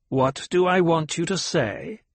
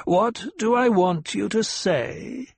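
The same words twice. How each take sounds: First: High old woman mocking her words; mocking old matriarch; cruel mimicry. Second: Even higher, slow mocking echo; slow, exaggerated cruel mimicry; cruel mimicry, heightened. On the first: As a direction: throw her question back at her. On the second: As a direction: drag out the mockery to sting. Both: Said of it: "The old voice carried a tone of cruel mimicry".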